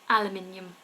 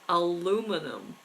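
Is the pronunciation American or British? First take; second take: British; American. First: It is said the British way, five syllables. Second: It is said the American way, four syllables. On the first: "But in the U K, we say aluminium" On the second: "In America, they say aluminum"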